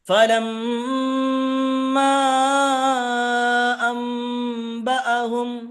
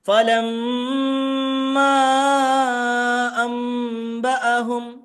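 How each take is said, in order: First: The doubled and long sounds are held fully. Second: The doubled and long sounds are held fully.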